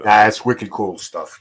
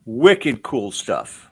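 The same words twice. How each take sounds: First: Slow native Rhode Island wicked cool; Rhode Island accent. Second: Slow, drawn-out Rhode Island wicked cool; attempting the Rhode Island accent slowly. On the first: Shown as a demonstration. Co-host demonstrates the real Rhode Island accent, slow. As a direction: show him how New Englanders say it. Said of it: "I can't do the accent you guys do". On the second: Host tries the local Rhode Island phrase on guests, slow attempt. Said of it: "as they say in Rhode Island".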